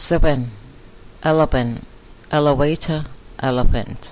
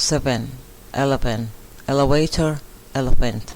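No difference in how they are said.

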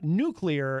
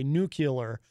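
First: The word is said as nuclear. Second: The word is said as nucular. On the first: The speaker calls it right. "But no, it is nuclear" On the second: The speaker calls it wrong. "almost like a dyslexic way of saying it, because you have to literally rearrange some of the letters"

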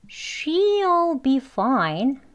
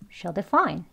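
First: She'll is said slowly and clearly. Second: She'll is said quickly and very short. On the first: The word she'll is emphasized. "she'll 하고 강조할 때는 천천히" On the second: The word she'll is not emphasized. "아주 짧게 발음합니다"

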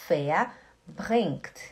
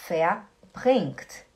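Both takes have the same delivery.

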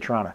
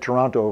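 First: It is said with a local Canadian pronunciation. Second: It is said with an American pronunciation. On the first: It is how locals say it. "We say Toronto" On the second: It is said for listeners from the United States. "I said Toronto for my American friends, that's how you say it"

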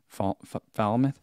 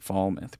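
First: The first syllable sounds like 'foul'. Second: The first syllable does not sound like 'foul'. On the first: The speaker calls it right. "almost like foul mouth" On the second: The speaker calls it wrong. "I've been saying Falmouth"

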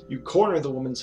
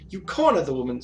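First: It is read in a plain normal voice. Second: It is read in a put-on character voice. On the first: The speaker calls it right. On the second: The speaker calls it wrong.

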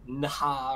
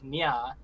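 First: It is said with separate 'n' and 'h' sounds. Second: It is said with a blended 'ny' sound. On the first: The speaker calls it wrong. "and not like Nha" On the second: The speaker calls it right. "that's pronounced like Nya"

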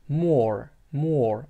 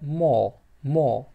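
First: The final r is clearly pronounced. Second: The final r is not pronounced. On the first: "Misol uchun more amerikanchada" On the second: "britanchada bo'lsa more raga urg'u berilmaydi"

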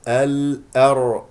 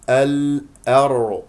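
The two takes are said the same way.

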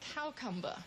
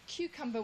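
First: The first vowel is changed in an affected way. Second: The word has its ordinary, standard pronunciation.

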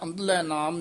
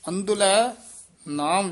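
First: The two words run together without a pause. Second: There is a brief pause after the first word. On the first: The speaker calls it wrong. "ਅੰਧਲੇ ਨਾਮ ਨਹੀਂ ਕਹਿਣਾ" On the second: The speaker calls it right. "ਅੰਧਲੇ ਪਦ ਤੇ ਯਮਕ ਲਾ ਕੇ ਉਚਾਰਨ ਕਰਨਾ ਹੈ"

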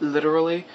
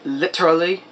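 First: It is said in an American accent. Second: It is said in a British accent. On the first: "in America we say literally" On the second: "over there you guys say literally"

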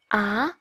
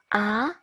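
The two takes are said the same way.

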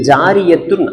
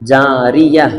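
First: The word ends with a full 'tun' syllable. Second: The word ends with a soft 'h' sound. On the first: "ஜாரிய துன் அப்படின்னு தான் வந்திருக்குது" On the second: "ஆனா நம்ம எப்படி வாசிக்கணும்னு சொன்னா"

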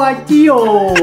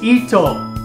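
First: The word begins with an 'eye' vowel. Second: The word begins with an 'ee' vowel. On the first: The speaker calls it wrong. "E, not I" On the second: The speaker calls it right. "You read it like E"

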